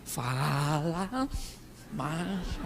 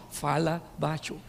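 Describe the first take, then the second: First: Very soft and low, words drawn out and rising; hammed-up hush, stretching each word; exaggerated husband hushing. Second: Low, soft, slower mock-husband voice; husband hushing wife. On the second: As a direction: imitate a husband quietly telling his wife to keep it down. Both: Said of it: "seu marido fala com você assim".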